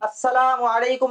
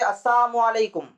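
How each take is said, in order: First: The first word is said in full as assalamu. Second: The first word is shortened to assamu. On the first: It wishes peace upon the listener. The speaker calls it right. "अस्सलामु अलैकुम नहीं कहते थे" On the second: It wishes death upon the listener. The speaker calls it wrong. "यानी तुम मरो"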